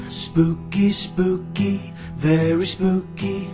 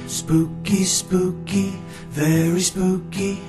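The two takes are said the same way.

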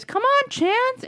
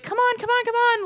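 First: Very high, slow, singsong call; inviting, not goading. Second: High, repeated urging; coaxing, goading. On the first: Jamie calling Chance inside, simply inviting. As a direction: invite the dog in sweetly. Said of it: "and not, like, a goading". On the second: Owner trying to get a dog in, coaxing. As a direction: wheedle a reluctant dog indoors. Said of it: "somebody just trying to get him in". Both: Retold or imitated.

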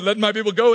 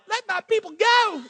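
First: A mock grand decree; booming Moses. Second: Much higher, thin and timid; weak mousy voice. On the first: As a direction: proclaim it like a movie prophet. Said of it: "it didn't sound like". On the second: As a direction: squeak it out like a mousy stutterer. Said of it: "It sounded more like". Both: Shown as a demonstration.

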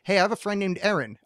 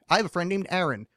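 First: Aaron said with a flat E, as in Erin; first Aaron, E vowel like Erin. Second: Aaron with a clear A, as in apple; second Aaron, open A vowel overpronounced. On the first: Host quizzing co-hosts on vowels, first Aaron with an E sound. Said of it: "okay, check this out". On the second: Host quizzing co-hosts on vowels, second Aaron with an A sound. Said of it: "I overpronounced Aaron". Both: Shown as a demonstration.

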